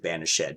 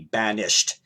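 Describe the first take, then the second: First: The word is said with three syllables. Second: The word is said with two syllables. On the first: "as opposed to" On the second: "a two-syllable word"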